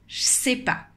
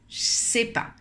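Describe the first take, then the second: The two takes are said the same way.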